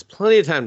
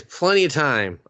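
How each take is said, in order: First: PLENTY punched louder, then falling away; stress on PLENTY. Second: Said in the usual way. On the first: Shown as a demonstration. Teller stressing how long the pixie had, emphatic PLENTY. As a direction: hit PLENTY hard for emphasis. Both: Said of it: "I have to emphasize this".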